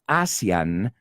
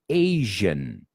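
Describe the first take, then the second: First: The middle consonant is a hissing s-like sound. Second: The middle consonant is a buzzing z-like sound. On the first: The speaker calls it wrong. "someone's not ASEAN" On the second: The speaker calls it right.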